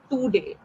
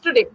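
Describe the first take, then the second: First: The first syllable is strongly stressed. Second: The second syllable is stressed, not the first. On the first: The speaker calls it wrong. "it sounds like today. Two. You're putting a lot of emphasis of two" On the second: The speaker calls it right. "it's today"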